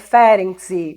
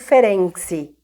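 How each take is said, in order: First: The name is pronounced the Latin American way. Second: The name is pronounced the European way. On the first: This is how it is usually said in Latin American countries. "Argentina, esses países falam Ferenczi" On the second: This is how it is usually said in Europe. "na Europa, fala muito Ferenczi"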